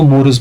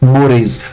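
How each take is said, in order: First: The word ends in a short 'us' sound. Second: The word ends in an 'ays' sound. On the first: The speaker calls it wrong. "बहुत सारे बच्चे इनको मोरस पढ़ते हैं" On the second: The speaker calls it right. "Actually it's pronounced as मोरेज"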